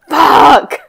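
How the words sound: It sounds angry.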